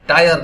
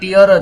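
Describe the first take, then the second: First: The vowel sounds like 'eye', as in tire. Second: The vowel sounds like 'ee', as in teer. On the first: The speaker calls it wrong. "ટાયર નહીં... હકીકતમાં French ઉચ્ચાર છે" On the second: The speaker calls it right. "એનો ઉચ્ચાર ટિયર જ થાય"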